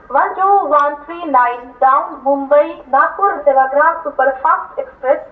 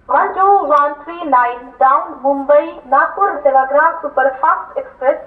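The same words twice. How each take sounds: The two takes are said the same way.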